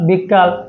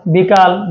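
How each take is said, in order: First: বিকাল said as বিক্কাল with a held kk; doubled k. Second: Said in the usual way. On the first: Shown as a demonstration. Teacher demonstrating the doubled k in বিকাল. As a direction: stretch the k in বিকাল. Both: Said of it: "দ্বিত্ব ব্যঞ্জন".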